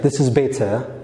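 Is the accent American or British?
British. It is said in a British accent. "The British English better ይሆናል"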